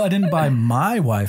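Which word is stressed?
my. The stress is on the word my.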